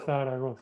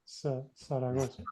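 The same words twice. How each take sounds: First: It is said with a Spain Spanish accent. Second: It is said with a Latin American accent. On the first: "In Spain, we say" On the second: "in Latin America, they would say Zaragoza"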